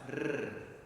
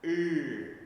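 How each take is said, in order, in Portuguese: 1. O R é um som fortemente trinado. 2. O R é um som aspirado, com sopro. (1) "precisa ser bem vibrante" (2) "Para não ficar er"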